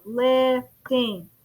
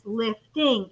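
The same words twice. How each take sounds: First: "lifting" split into two beats, lif, ting; syllable by syllable. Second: Said in the usual way. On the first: Shown as a demonstration. Teacher counts syllables for class, "lifting" in two beats. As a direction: say "lifting" with a gap between syllables. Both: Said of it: "It's two syllables".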